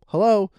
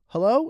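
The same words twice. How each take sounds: First: It is said as a plain greeting. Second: It sounds puzzled, as if unheard.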